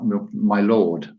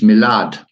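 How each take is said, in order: First: It is said in a full form, like my lord. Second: It is said in a reduced form, like milad. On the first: The speaker calls it wrong. "not my lord" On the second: The speaker calls it right. "it's milad"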